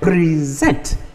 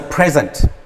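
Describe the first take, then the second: First: The stress is on the second syllable. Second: The stress is on the first syllable. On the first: It names an action. "That is the verb" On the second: It names a thing. "It's a noun"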